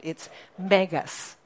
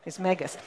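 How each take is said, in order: First: "megas" drawn out slowly; slow stressed megas. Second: Said in the usual way. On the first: Shown as a demonstration.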